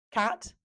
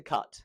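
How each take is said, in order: First: "cat" with an open front A, pitched high; short A. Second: "cut" with a central uh vowel; A turned to uh. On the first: Teacher showing the right vowel, "cat" with short A. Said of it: "rather than an a". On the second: Teacher showing the mistake, "cut" with uh vowel. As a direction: say "cut" with uh in place of A. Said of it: "turns to cut". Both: Shown as a demonstration.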